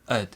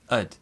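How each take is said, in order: First: It has a short, reduced vowel. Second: The same.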